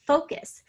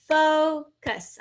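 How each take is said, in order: First: Said in the usual way. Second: Focus split as "fo", pause, "cus", higher and louder; syllable by syllable. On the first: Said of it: "say the word by syllables". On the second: Shown as a demonstration. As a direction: sound out focus in two clear beats. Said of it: "I can hear those two syllables".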